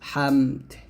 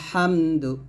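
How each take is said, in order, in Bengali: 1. শব্দটি একটি স্বরহীন ব্যঞ্জন দিয়ে শেষ হয়। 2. শব্দটি একটি হ্রস্ব স্বরধ্বনি দিয়ে শেষ হয়।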